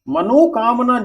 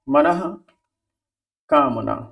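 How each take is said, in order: First: The first part ends in 'o', joined on. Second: The first part ends in a breathy 'ah'. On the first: The speaker calls it wrong. "वो गलत है" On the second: The speaker calls it right. "ये आपका सही है"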